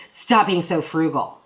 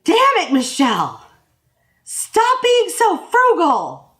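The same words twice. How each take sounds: First: Playful mock scold; lightly goofy quote, a little louder. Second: Loud, high mock outburst, slow on the last words; husband yelling at Michelle over spending, loud and high; retold shout. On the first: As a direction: toss it off as a silly inside joke. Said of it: "we just kind of goofily". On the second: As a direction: burst out at Michelle, much higher and louder. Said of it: "And he goes".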